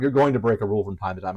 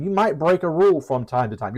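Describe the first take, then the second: First: Lower, faster dry sarcasm on "going"; knowing sarcastic correction. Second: Said in the usual way. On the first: Shown as a demonstration. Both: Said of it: "I'm being a little sarcastic".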